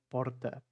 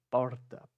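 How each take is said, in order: Both takes have the same delivery.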